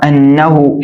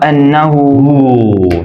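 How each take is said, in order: First: The final vowel is short. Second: The final vowel is drawn out long. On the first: "ये सिर्फ पेश है, सीधा पेश है" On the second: "उल्टा पेश होता तो"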